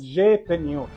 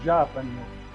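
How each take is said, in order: First: The vowel after the J sounds like 'e'. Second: The vowel after the J sounds like 'a'. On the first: This is the modern Greek-style pronunciation. "if you pronounce it with the modern Greco kind of Coptic" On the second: This is the old pronunciation. "it was close to Japaniot, not J-Peniot"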